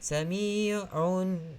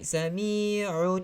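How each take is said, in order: First: The final n carries a clearly audible nasal hum. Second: The final n has no audible nasal hum. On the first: The speaker calls it right. "Dia mesti naik" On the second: The speaker calls it wrong. "Kalau tidak naik"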